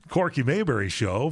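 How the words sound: It is said with a smiling, cheerful voice. "he would put a smile and say"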